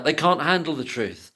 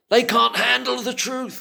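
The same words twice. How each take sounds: First: Said in the usual way. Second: High, loud movie-line quote. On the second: Retold or imitated. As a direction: deliver it like the famous film line. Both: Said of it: "I've always wanted to say that".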